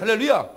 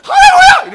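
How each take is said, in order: First: It is said in an ordinary, plain way. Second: It is said with great force and intensity.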